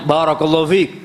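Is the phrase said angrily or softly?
angrily. It is said in an angry, harsh voice. The person is still venting anger through the words. "sambil marah gitu kan"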